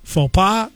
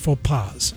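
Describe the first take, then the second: First: The final S is silent. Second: The final S is sounded. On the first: It refers to one mistake. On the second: It refers to several mistakes.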